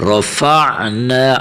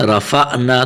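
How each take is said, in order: First: Slow رفعنا with a smooth, voiced throat ain; true ain. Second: رفعنا with a jerky glottal stop; ain as hamza. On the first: Shown as a demonstration. Teacher corrects the children's mistake, رفعنا with true ain. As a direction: draw out رفعنا, ain flowing without any jerk. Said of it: "عین کی اپنی آواز نکالنی ہے". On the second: Retold or imitated. Teacher copies children's mistake, رفعنا with a jerked hamza. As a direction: break رفعنا abruptly before the final na. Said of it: "تو یہ غلط پڑھا جائے گا".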